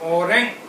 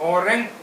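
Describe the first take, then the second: First: It is said with a German pronunciation. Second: It is said with a German pronunciation.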